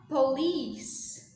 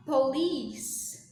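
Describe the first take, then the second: First: The word is said like 'police'. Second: The word is said like 'police'.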